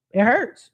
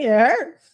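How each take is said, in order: First: Said in the usual way. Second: "hurts" pushed a bit higher, drawn out; stressed repeat. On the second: Shown as a demonstration. Repeating to her viewers that it hurts, with more weight. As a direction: lean into "hurts" the second time.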